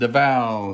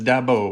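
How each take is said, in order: First: The middle consonant is a V sound. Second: The middle consonant is a B sound. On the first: "some people pronounce it Davao" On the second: "with a, like a B"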